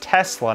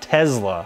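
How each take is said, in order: First: The middle consonant is a hissing s sound. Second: The middle consonant is a buzzing z sound. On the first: The speaker calls it right. "learn how to pronounce an S" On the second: The speaker calls it wrong. "It's not a Z"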